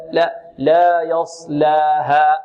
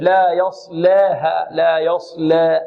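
First: Slow يصلاها with a pure open "laa"; correct open lam. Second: Slow يصلاها with the لا leaning towards "leh"; wrong tilted alif. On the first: Tajweed teacher correcting, open ل vowel in يصلاها. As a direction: keep the alif of يصلاها open, never towards e. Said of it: "نحافظ على فتح اللام". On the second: Tajweed teacher imitating over-thinned, tilted alif in يصلاها. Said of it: "فيميل الألف". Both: Shown as a demonstration.

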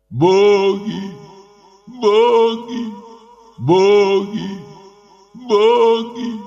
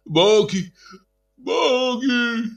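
First: High, louder moaning crowd; стон и плач. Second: High wailing crowd cry; вопль толпы. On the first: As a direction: moan and weep the word. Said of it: "стонал и плакал народ". (стонущий плач народа) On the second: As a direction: wail it out, pleading. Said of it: "завопила толпа". (вопль толпы) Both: A narrator's reading.

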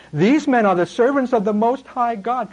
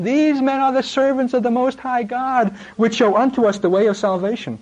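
First: Higher, shrieking mock demon girl voice; shrill possessed girl. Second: Put-on much higher, shrieking demon-girl cry; shrill possessed girl. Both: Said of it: "freaky, shriekish, shrill intonation".

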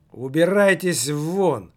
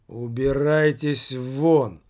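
First: Slow, loud outburst; sudden exclamation. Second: Slow, even and tired; calm, weary. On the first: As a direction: throw him out all at once. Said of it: "воскликнул директор неожиданно". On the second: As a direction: say it like you're exhausted of him. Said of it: "достаточно спокойно и даже с оттенком какой-то усталости". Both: A narrator's reading.

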